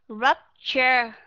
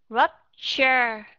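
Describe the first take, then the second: No difference in how they are said.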